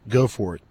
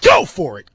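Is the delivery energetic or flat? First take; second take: flat; energetic. First: It is read flatly, with little energy. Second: It is read loudly, with lively energy. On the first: The speaker calls it wrong. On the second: The speaker calls it right.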